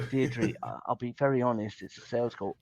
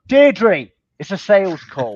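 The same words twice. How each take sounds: First: Quiet and low, gently confiding; soft, level honesty on a cold call; soft honest delivery. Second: Loud, high and blunt, blasting the news; too loud for the sales opener; blunt loud delivery. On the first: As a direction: ease the news in softly. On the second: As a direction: hit her with it hard and loud. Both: Retold or imitated. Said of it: "and you go".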